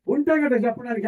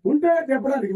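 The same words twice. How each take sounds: First: Voicing the congregation's excuse as a rising question; mock excuse from the listeners. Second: "ఉంటే" hit hard, then a falling, final statement; stress on ఉంటే. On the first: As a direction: ask "ఉంటే కదా చెప్పడానикి" back as if the crowd said it. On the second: Shown as a demonstration. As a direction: lean on "ఉంటే" and let the phrase drop as a verdict. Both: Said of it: "అంటారా".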